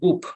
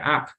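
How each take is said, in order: First: The vowel is a Spanish-like 'oo' sound. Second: The vowel is a short English 'uh' sound. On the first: The speaker calls it wrong. "aquí leemos U I P y quiero decir up" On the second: The speaker calls it right. "en realidad pues se va a pronunciar up"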